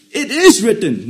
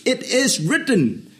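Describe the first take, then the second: First: "It IS written", with IS hit hard and loud; loud stress on is. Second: "It IS written", slow, the IS leaned on and drawn out; slow and weighty, lean into IS; stress on is. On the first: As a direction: proclaim it, hammer the IS. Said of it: "Not that it was written and no more". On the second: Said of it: "Very interesting statement". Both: Shown as a demonstration.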